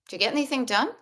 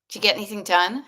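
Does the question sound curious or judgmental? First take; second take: curious; judgmental. First: The question sounds light, neutral and curious. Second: The question sounds harsh, judgmental and accusing. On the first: The asker simply wants to know. The speaker calls it right. "Just get curious" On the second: The listener is being blamed for doing nothing. The speaker calls it wrong. "Judgy, wicked judgy"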